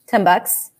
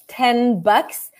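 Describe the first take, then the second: First: Ten ends with an M sound before bucks. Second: Ten ends with a clear N sound. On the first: "I could potentially pronounce that with an M" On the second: "Technically, it's 10 bucks"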